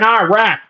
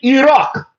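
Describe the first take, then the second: First: It is said in a Southern American drawl. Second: It is said with an Arabic-style pronunciation. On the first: The speaker calls it wrong. "With your stupid longhorn foghorn accent" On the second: The speaker calls it right.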